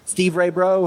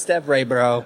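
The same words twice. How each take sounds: First: "Steve Ray Bro" with a long ee, as in Steve; wrong name. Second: "Stev Ray Bro" with a short e, as in step; correct name. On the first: Retold or imitated. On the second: Shown as a demonstration. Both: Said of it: "we've heard it both ways".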